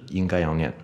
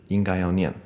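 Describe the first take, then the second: The two takes are said the same way.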